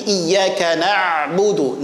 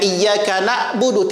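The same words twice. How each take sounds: First: Na'budu with a long, flowing ain. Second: Na'budu with the ain stopped short; cut-off ain. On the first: Teacher models the correct reading, ain left to flow. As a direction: let the ain in "na'budu" stream on before "budu". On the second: Teacher warns students with the wrong reading, ain cut short. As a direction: choke off the ain in "na'budu" like a glottal stop. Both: Shown as a demonstration. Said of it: "latih untuk mengalirkan huruf ain".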